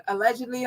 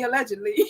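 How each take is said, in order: First: Said in the usual way. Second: "allegedly" with a laugh and a rising tune. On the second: Shown as a demonstration.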